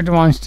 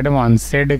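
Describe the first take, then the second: First: The ending is said without an extra syllable. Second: The ending is said as an extra syllable. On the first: The speaker calls it right. "एडवांस्ड को एडवांस्ड नहीं कहेगा" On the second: The speaker calls it wrong. "एडवांसेड कह रहा है"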